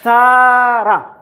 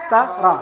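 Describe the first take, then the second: First: The vowels are drawn out long. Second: The vowels are kept short. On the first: The speaker calls it wrong. "No prolongation, don't prolong. So don't say tara" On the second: The speaker calls it right. "Say tara"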